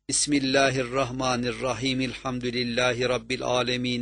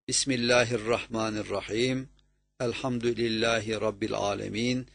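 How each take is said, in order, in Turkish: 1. Ayetler durmadan birbirine bağlanarak okunur. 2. Her ayet belirgin bir durakla biter. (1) "birleştirmek" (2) "birbirine katmadan durarak ayet ayet okurdu"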